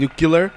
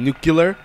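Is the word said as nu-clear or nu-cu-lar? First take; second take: nu-cu-lar; nu-cu-lar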